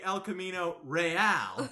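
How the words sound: It is pronounced fully the Spanish way. "pronounce it correctly"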